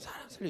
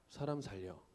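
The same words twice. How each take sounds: First: It is shouted loudly and desperately. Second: It is said quietly and calmly.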